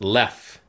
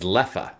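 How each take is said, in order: First: The name ends on a bare f sound. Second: The name ends with an extra uh vowel. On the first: This is the French-style pronunciation. "So it's pronounced Lef" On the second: This is the Dutch pronunciation. "the Dutch pronunciation is Leffa"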